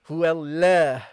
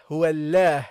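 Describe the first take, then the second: First: The l sound is thin and light. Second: The same.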